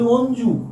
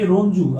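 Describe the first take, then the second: First: "অঞ্জু" beginning on the vowel, no r; dropped initial r. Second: Said in the usual way. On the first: Shown as a demonstration. Teacher shows how they call the boy, "অঞ্জু" without r. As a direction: leave off the r at the front of "অঞ্জু". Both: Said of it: "আমরা তাকে বলি অঞ্জু".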